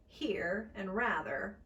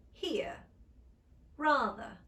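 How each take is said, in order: First: Said in the usual way. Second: "rather" as "rah-thuh", R dropped, a little louder; British non-rhotic. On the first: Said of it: "would become here, rather". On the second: Shown as a demonstration. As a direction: drop the R in "here" and "rather". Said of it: "would become".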